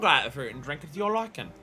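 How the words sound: It is spoken in an exaggerated British accent.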